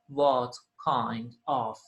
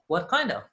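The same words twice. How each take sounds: First: The words are said separately. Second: The words run together smoothly. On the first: The speaker calls it wrong. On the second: The speaker calls it right. "we say"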